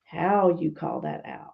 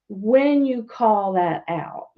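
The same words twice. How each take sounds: First: "how" stressed, the rest dropping soft and slow. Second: "when" lifted and stretched, slowed; stress on when. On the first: Advising families, stressing "how" to call out a lie. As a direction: lean on "how", let the phrase sink. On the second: Advising families, stressing "when" to call out a lie. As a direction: lean on "when", then let "you call that out" fall. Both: Shown as a demonstration.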